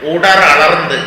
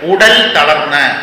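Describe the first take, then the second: First: The two words merge into one joined form. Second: The two words are said separately, unmerged. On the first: "അത് തമിഴ് സന്ധിയിൽ ഇങ്ങനെയാണ് ആവുന്നത്" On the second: "അത് പിരിക്കേണ്ടത് ഉടൽ തളർന്ന്"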